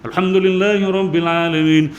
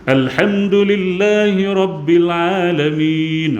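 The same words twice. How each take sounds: First: It is recited quickly with short vowels. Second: It is recited at a moderate speed. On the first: It suits memorizing the Quran. "Al-Hadar ni bacaan agak laju" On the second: It suits leading others in prayer. "baca agak laju sedikit"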